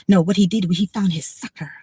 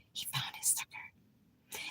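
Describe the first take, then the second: First: Unvoiced conspiratorial whisper. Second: Barely audible, slow unvoiced whisper; faint whisper. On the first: Telling viewers about landlord, whispering. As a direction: lean in and whisper the secret. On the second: Repeating to viewers about her landlord, barely whispered. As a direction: breathe it out almost silently, slowly. Repeating the aside even softer.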